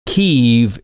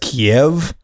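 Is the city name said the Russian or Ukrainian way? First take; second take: Ukrainian; Russian. First: The name is said the Ukrainian way. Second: The name is said the Russian way. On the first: "Kyiv is how the locals, Ukrainians, pronounce it" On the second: "That's the Russian pronunciation"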